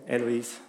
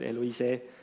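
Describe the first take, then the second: First: The final e is left silent at the end. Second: The final e is sounded at the end. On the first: The speaker calls it right. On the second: The speaker calls it wrong.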